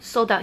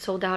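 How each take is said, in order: First: It sounds short and blunt. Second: It sounds soft and apologetic. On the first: The seller simply states the fact. "or he's just like, no" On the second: The seller feels bad about it. "it's not like he's like, oh, I'm so sorry"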